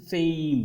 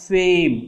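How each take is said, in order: First: "fame" with an EY glide; "fame" with a diphthong, not a long A; correct pronunciation. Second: "fame" with a long pure A; "fame" as a flat long vowel, the mistake; wrong pronunciation. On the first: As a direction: say "fame" gliding from e to i. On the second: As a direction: say "fame" slowly with one held vowel, no glide. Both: Shown as a demonstration. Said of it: "it is not fame".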